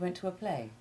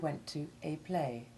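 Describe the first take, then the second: First: The word 'a' has a short vowel. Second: The word 'a' has a long vowel. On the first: The speaker calls it right. "the short A to Ivy sound, which it should almost always have" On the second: The speaker calls it wrong. "people are increasingly using a long A one"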